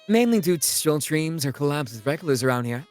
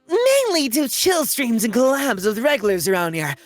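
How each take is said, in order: First: It is said in a calm, plain way. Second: It is said higher and more upbeat.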